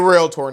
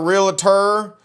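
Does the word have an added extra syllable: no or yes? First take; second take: no; yes. First: The word is said without an extra syllable. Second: The word is said with an extra syllable. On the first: The speaker calls it right. "that's the correct way to say it" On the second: The speaker calls it wrong. "put extra syllables in there that don't belong"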